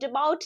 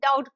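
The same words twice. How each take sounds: First: A b sound is heard before the t. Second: No b sound is heard before the t. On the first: The speaker calls it wrong. "डाउट नहीं बोल रहे हैं" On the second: The speaker calls it right. "डाउट कह रहे हैं"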